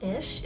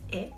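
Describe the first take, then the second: First: The word ends in a soft 'sh' sound. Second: The word ends in a harder, non-'sh' sound. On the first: The speaker calls it wrong. "It's not ish" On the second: The speaker calls it right. "It's ich"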